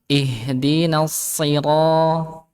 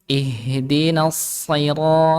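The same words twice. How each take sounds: First: Sira, said very slowly with a thin ra; thin ra wrong. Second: Sira. said very slowly with a heavy rounded ro; heavy ro right. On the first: Teacher shows the wrong thin ra to class. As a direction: drag out Ihdinas sira, with thin ra. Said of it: "bukan ra". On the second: Teacher shows the correct heavy ro to class. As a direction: drag out ihdinas sira. with heavy ro. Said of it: "ro-nya tebal". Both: Shown as a demonstration.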